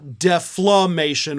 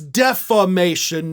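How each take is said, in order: First: The word has an added L sound in it. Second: The word has no L sound in it. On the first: The speaker calls it wrong. "not deflammation" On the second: The speaker calls it right. "This is defamation"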